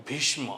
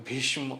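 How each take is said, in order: Both takes have the same delivery.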